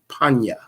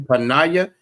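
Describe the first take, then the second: First: The word is said with two syllables. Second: The word is said with three syllables. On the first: The speaker calls it right. "it's gonna be panya" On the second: The speaker calls it wrong. "it's not gonna be panaya"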